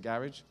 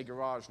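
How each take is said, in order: First: GARAGE as "GARR-idge"; British pronunciation. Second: GARAGE as "guh-RAHZH"; American pronunciation. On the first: British preacher showing his old habit, GARAGE as "GARR-idge". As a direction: stress the first syllable of GARAGE, short ending. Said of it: "now instead of garage". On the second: British preacher showing his learned American, GARAGE as "guh-RAHZH". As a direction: stress the second syllable of GARAGE, long ah. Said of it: "I'll try and speak American". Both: Shown as a demonstration.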